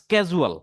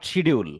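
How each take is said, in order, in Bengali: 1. শব্দটি 'sk' ধ্বনি দিয়ে শুরু হয়। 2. শব্দটি 'sh' ধ্বনি দিয়ে শুরু হয়। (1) "এটা হলো সঠিক উচ্চারণ" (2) "নট শিডিউল"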